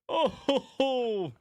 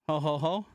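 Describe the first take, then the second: First: It is said with more energy. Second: It is said with little energy.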